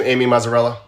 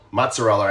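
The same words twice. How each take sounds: First: "Mazzarella" read with a flat "a" in the first syllable, like "Mazza". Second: "Mozzarella" said like the cheese, "mots-a-rella"; corrected name. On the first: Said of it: "there's two Z's, so I wanna say it's mozzarella". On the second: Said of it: "I wanna say it's mozzarella". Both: Shown as a demonstration.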